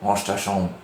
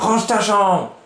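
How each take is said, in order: First: It is said calmly, without shouting. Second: It is shouted loudly.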